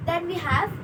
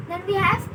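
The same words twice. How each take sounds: The two takes are said the same way.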